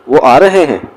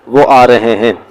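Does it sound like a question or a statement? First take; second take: question; statement. First: It is said with question intonation. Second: It is said with statement intonation. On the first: It asks whether they are coming. "So it is an interrogative sentence" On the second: It states that they are coming. "ये एक statement statement है"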